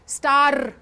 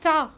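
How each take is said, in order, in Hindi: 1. आख़िरी r की आवाज़ तेज़ और भारी है। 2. आख़िरी r की आवाज़ नरम और हल्की है।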